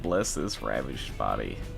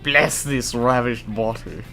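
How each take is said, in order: First: It is said in a plain American accent. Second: It is said in an exaggerated British accent.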